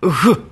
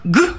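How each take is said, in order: First: The consonant is continuous friction without a burst. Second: The consonant is a stop with a burst of air.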